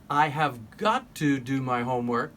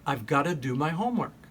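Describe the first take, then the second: First: Each word is said fully and separately. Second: The words are linked into a reduced form.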